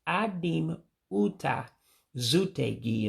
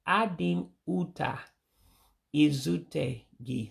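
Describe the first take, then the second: First: The last word begins directly with 'z'. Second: The last word begins with an 'i' vowel. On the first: The speaker calls it right. "you're dropping the I in the front of that one" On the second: The speaker calls it wrong. "Said it wrong, actually"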